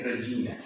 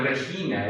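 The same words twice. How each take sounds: First: Regina with soft G, like "Reyina"; soft Italian G in Regina; church Latin pronunciation. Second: Regina with throaty Spanish J, "Rejina"; hard Spanish G in Regina; Spanish pronunciation. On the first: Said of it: "es Regina". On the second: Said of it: "no es Regina". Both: Shown as a demonstration.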